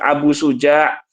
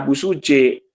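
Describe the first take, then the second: First: The name ends with an 'a' vowel sound. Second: The name ends with an 'e' vowel sound. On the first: The speaker calls it right. "Abu Suja ya" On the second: The speaker calls it wrong. "jangan dibaca Abu Suje"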